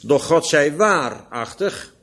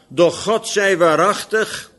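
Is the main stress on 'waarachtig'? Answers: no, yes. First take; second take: yes; no. First: The main stress is on waarachtig. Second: The main stress is not on waarachtig. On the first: The speaker calls it right. "In verband met de waarheid namelijk" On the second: The speaker calls it wrong. "Eigenlijk moet ik de klemtoon anders leggen"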